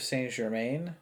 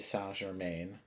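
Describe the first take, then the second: First: The name is pronounced the English way. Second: The name is pronounced the French way.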